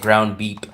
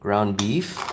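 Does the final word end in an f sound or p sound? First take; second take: p sound; f sound. First: The last word ends with a p sound. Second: The last word ends with an f sound.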